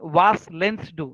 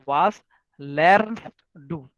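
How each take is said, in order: First: The R sound in the middle word is dropped. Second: The R sound in the middle word is pronounced. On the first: The speaker calls it wrong. "you cannot say was lens do" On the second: The speaker calls it right. "you have to say was learns do"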